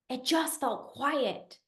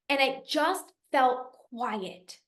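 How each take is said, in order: First: Softer quiet. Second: Calm quiet. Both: Real, not acted.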